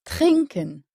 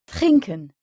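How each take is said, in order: First: "Trinken" stressed on TRIN, ending light; first-syllable stress. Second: "trinken" slowly, TRIN stressed, -ken unstressed; stress on the first syllable. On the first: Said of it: "accentués sur la première syllabe". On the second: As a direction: say "trinken" German style, weight on TRIN. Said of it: "pas la dernière comme c'est le cas en français". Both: Shown as a demonstration.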